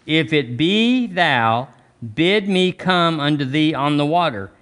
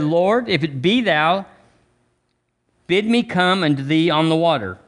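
First: Slow, each word weighed; slow emphatic reading. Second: Said in the usual way. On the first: Shown as a demonstration. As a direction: read it again slowly, savouring every word. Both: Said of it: "Look, look".

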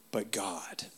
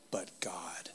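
First: Dramatic whisper. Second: A softer breath of a whisper; dramatic whisper. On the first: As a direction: whisper it softly, with weight. Sermon's key phrase, dramatic hush. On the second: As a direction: hush it even further, almost breathless. Repeating the key phrase. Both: Acted.

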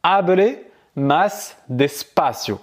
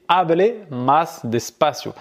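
First: Slowly spelled-out Spanish; slow model phrase. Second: Slow, clear Spanish; careful teacher demo; slow model phrase. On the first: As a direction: say it slowly for the learner to copy. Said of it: "Donc du coup, tu vas dire". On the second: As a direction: say it slowly, clearly. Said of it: "A R et". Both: Shown as a demonstration.

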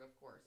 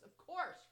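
First: Said in the usual way. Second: COURSE punched high and loud; sarcastic emphasis. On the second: Real, not acted. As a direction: hit "course" hard, scornfully.

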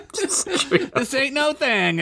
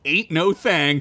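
First: Slow drawn-out high bravado; fake nonchalance. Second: Said in the usual way. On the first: Derek shrugs off the heavy gem, slow and cocky. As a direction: drag it out cocky. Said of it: "faking confidently".

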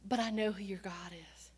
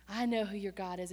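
First: Hushed whisper of faith. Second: Said in the usual way. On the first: Acted. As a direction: whisper it like a secret promise.

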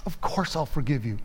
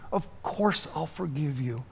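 First: Said in the usual way. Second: Softer, tender repeat of the forgiveness; soft reassurance. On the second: Acted. Mother softly reassuring her grown daughter, tender. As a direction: ease off and say it gently again.

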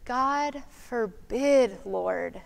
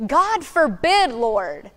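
First: Slow, soft, trembling near-whisper; almost whisper it in fear; fearful near-whisper. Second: Forceful, mildly angry plea; strong and angry. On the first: Preacher imagining Peter afraid, almost whispering. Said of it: "he almost whispered". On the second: Preacher imagining Peter rebuking Jesus, with mild anger. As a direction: say it with strength and anger. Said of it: "with strength and anger in his voice". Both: Shown as a demonstration.

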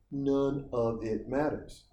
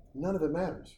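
First: None of it matters drawn out slowly with NONE leaned on; slow emphatic. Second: Said in the usual way. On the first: Shown as a demonstration. Telling viewers that cheap calls no longer matter, slow and weighty. Repeats line slower.

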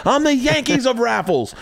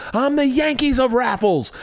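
First: 1 boast with a laugh. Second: 1 mock boasting. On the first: Retold or imitated.

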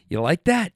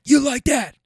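First: Said in the usual way. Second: High, loud celebratory taunt; imitated athlete's hyped yell; Kirk Cousins. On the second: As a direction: punch it out as a raised-voice boast. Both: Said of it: "Kirk Cousins style".

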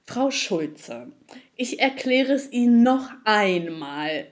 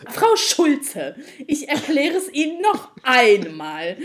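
First: Condescending agent. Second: Slow, louder, patronising agent imitation; mock him, drawn out and smug. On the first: Retold or imitated. Frau Schulze hears the agent's patronising repeat, slowly. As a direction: spell it out slowly like to a child. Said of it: "Und dann meinte er so". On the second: Frau Schulze mimics the smug support agent, slow and patronising. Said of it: "Wirklich genau so".

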